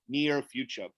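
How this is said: The R at the end of near is pronounced. "U S A is like near"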